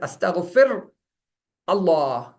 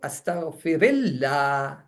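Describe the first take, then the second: First: The words stay apart with a halt between them. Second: The words run together with an added i vowel. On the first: The speaker calls it wrong. "you don't read it as astaghfir Allah" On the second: The speaker calls it right. "you bring in a kasre so that the pronunciation is in a flow"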